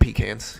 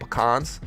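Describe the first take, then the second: First: It uses the northern pronunciation. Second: It uses the southern pronunciation. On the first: The speaker is from the North. "up north they call them pecans" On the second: The speaker is from the South. "in the South, most people call them pecans"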